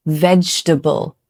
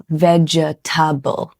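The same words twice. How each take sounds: First: Vegetable said in three syllables, VEJ-tuh-bul; vegetable with the middle vowel dropped, VEJ-tuh-bul; correct vegetable. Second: Vegetable said slowly in four syllables, VEJ-uh-tuh-bul; vegetable with every syllable spelled out, VEJ-uh-tuh-bul; wrong vegetable. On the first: Teacher models how native speakers say vegetable. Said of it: "Most native speakers will say". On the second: Teacher shows the wrong way to say vegetable. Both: Shown as a demonstration.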